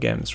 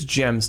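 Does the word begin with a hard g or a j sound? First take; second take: hard g; j sound. First: The word begins with a hard g sound. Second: The word begins with a soft j sound. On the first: The speaker calls it wrong. "not gems" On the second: The speaker calls it right. "It's gems, ... like jump"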